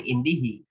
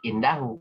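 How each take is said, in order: First: The word ends with the vowels i-hi. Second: The word ends with the vowels a-hu. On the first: The speaker calls it wrong. "Jangan indihi" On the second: The speaker calls it right. "Karena dia keterangan"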